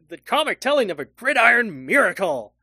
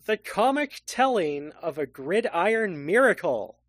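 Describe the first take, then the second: First: It is said with lively excitement. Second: It is read out plainly, without excitement.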